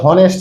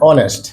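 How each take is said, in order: First: The word begins with an h sound. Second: The word begins with a vowel, no h. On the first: The speaker calls it wrong. "এটা কিন্তু হনেস্ট না" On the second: The speaker calls it right.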